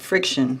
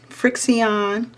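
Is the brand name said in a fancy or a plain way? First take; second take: plain; fancy. First: The name is said like the everyday word friction. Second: The name is said with a fancy, posh pronunciation.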